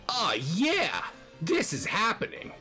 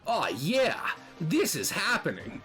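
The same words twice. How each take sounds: First: The voice is higher in pitch. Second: The voice is lower in pitch. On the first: The speaker calls it right. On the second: The speaker calls it wrong.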